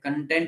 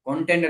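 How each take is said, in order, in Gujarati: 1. પહેલો સ્વર 'uh' જેવો સંભળાય છે. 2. પહેલો સ્વર 'oh' જેવો સંભળાય છે. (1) "કન્ટેન્ટ એટલે સંતુષ્ટ થાય" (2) "કોન્ટેન્ટ એટલે વિષય વસ્તુ થાય"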